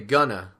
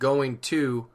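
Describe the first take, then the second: First: The phrase is reduced to one short word. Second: The phrase is said in full, unreduced. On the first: "we might say gonna, which is more like spoken English" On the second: "instead of saying going to"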